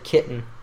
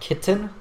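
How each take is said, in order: First: The T in the middle is a glottal stop. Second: The T in the middle is clearly pronounced. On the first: "That glottal T" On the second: "you said like kitten"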